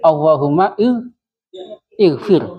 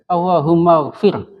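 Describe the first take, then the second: First: The words are separated, keeping the 'i' vowel. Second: The words run together without the 'i' vowel. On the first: "kalau kita putus-putus" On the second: "kalau disambung"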